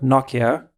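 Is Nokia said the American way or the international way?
international. Nokia is said in an international way. This is the way the rest of the world says it. The speaker calls it wrong. "like the rest of the world calls it"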